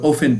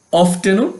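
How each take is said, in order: First: অফেন without any T; preferred reading অফেন, T left silent. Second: অফটেনও with the T sounded; the alternative reading অফটেনও, T pronounced after F. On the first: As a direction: drop the T in অফেন. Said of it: "তবে অফেন পড়বো". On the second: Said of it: "অফটেনও পড়া যায়". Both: Shown as a demonstration.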